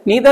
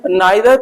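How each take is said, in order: First: The first vowel is an 'ee' sound. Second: The first vowel is an 'eye' sound. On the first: This is the American pronunciation. "American में" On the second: This is the British pronunciation. "British में"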